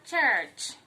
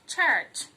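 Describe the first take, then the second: No difference in how they are said.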